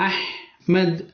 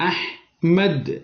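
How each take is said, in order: Both takes have the same delivery.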